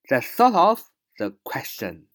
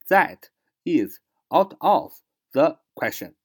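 First: The words run together quickly and are linked. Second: Each word is said slowly and separately. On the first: "快读连读" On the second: "这是慢慢读"

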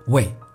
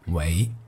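First: The syllable is said with a falling tone. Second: The syllable is said with a rising tone. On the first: It means doing something for someone. The speaker calls it wrong. "并不读第四声为" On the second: It means cultivating oneself. The speaker calls it right. "而是读第二声为"

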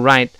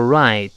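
First: It is said quickly with the final t unreleased. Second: It is said slowly with a clear final t. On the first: "读快之后那个right，最后那个t 就几乎听不到了" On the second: "读得很慢叫right"

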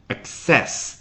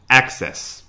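First: The stress is on the second syllable. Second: The stress is on the first syllable. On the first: The word is used as a verb. "access 做动词讲，它的重音是access 第二个音节" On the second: The word is used as a noun. "那做名词直接放在开头access"

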